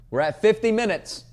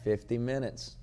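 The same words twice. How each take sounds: First: High, loud proud announcement; excited loud call. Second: Said in the usual way. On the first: Real, not acted. Host proudly announcing the runtime to listeners, loud and high. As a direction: belt out the milestone, pumped.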